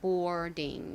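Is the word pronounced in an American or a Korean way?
American. It is said with an American English accent. "미국식으로는 boarding 이렇게 발음하고요"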